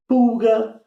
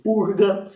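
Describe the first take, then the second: First: It is said with an L sound before g. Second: It is said with an R sound before g.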